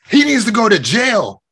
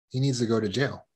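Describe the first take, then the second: First: It is said in a raised, aggressive voice. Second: It is said in a calm, assertive voice. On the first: The speaker is being aggressive. The speaker calls it wrong. "that's aggressive" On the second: The speaker is being assertive. The speaker calls it right. "that's assertive"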